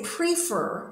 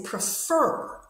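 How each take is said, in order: First: PRE-fer with a long ee in PRE; wrong first-syllable stress. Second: Pre-FER, short pre and long FER; correct second-syllable stress. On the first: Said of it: "we don't say prefer". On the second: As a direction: stress the end of prefer. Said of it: "stress is on the second part". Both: Shown as a demonstration.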